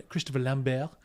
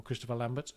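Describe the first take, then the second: First: "Lambert" said French-style with silent t; French pronunciation. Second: "Lambert" said English-style with sounded t; English pronunciation. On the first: Naming the film's star, "Lambert" in French pronunciation. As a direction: say "Lambert" as lam-BEAR. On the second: The name as we know him, "Lambert" in English pronunciation. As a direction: say "Lambert" as LAM-bert. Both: Shown as a demonstration. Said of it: "as we know him".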